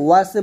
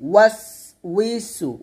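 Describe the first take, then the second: First: The word is shortened to 'waswe'. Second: The word is said in full as 'waswisu'. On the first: The speaker calls it wrong. "ওয়াসে বলা যাবে না" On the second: The speaker calls it right. "বলতে হবে আল্লাযী ইউ ওয়াস উইসু"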